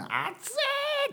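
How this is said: It is said emotionally with a high voice. The speaker feels strongly about it. "こう感情が入ると声が高くなるんですね"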